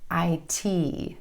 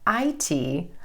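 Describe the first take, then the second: First: The stress is on the last letter. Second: The stress is on the first letter. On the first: The speaker calls it right. "Make sure your emphasis falls on that last letter" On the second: The speaker calls it wrong. "instead of"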